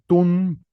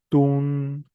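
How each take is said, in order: First: The vowel is short. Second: The vowel is long. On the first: "con vocal corta" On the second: "con vocal larga"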